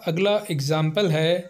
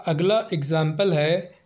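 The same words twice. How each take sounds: The two takes are said the same way.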